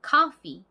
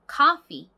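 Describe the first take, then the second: No difference in how they are said.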